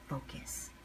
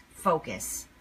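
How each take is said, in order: First: Breathy whisper of one word. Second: Said in the usual way. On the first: Shown as a demonstration. Speaker to viewers, repeating focus as a whisper. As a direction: whisper it like a private command to yourself.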